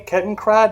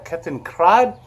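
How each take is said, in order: First: The word is said with an American pronunciation. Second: The word is said with a European pronunciation. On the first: "Am I saying it an American way" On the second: "I should be calling it a Kettenkrad?"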